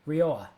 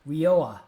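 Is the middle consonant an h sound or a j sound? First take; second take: h sound; h sound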